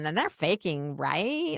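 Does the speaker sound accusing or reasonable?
accusing. The tone is pushy and accusing. The asker already believes they are faking. The speaker calls it wrong. "I don't suggest you say it like that"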